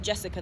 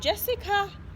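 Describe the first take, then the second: First: The pitch does not rise at the end. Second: The pitch rises at the end. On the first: It sounds serious, not like a greeting. The speaker calls it wrong. "That sounds a little bit serious" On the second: It works as a friendly hello. The speaker calls it right. "you must raise um, your voice at the end of the person's name"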